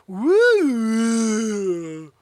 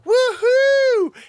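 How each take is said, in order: First: The pitch goes downward. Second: The pitch goes upward.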